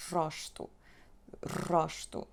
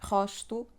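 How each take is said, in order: First: "rosto" with a trilled R; old rolled R. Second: "rosto" with a throaty h start; back R. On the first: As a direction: roll the R in "rosto". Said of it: "somebody would say". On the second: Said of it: "Instead of saying rosto". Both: Shown as a demonstration.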